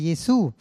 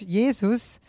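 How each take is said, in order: First: The name is pronounced the French way. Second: The name is pronounced the German way. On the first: "in Französisch sagt man" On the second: "in Deutsch"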